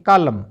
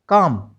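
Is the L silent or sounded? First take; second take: sounded; silent. First: The L sound is pronounced. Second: The L sound is left out. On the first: The speaker calls it wrong. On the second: The speaker calls it right.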